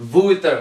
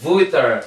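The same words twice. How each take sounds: First: ووتر said wrongly with an English W, "wooter"; wrong W sound. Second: ووتر starting with a V, "vooter"; correct V sound. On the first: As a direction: start ووتر with rounded lips, no teeth on lip. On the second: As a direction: say ووتر as "vooter", not "wooter". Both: Shown as a demonstration.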